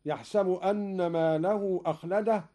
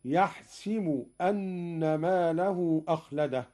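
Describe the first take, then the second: First: Said in the usual way. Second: يحسب said yaḥsibu, with an i on the sin; kasra on the sin. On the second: Shown as a demonstration. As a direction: recite يحسب with the sin vowelled i, not a. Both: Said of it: "بكسر السين".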